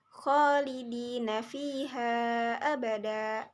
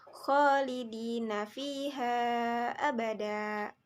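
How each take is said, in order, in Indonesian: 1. Vokal panjang ditahan selama empat harakat. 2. Vokal panjang ditahan selama lima harakat. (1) "empat harakat" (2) "lima harakat"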